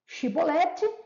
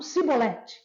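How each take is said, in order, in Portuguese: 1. A palavra começa com som de ch. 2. A palavra começa com som de s. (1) "A palavra-chave era chibolete" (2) "Eles não conseguiam falar chi. Eles falavam si"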